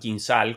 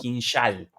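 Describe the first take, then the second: First: The middle consonant is a plain 's' sound. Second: The middle consonant is an 'sh' sound. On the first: This is how Spanish speakers would say it. "como lo llamaríamos nosotros" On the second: This is how Russians themselves say it. "sino que lo llaman"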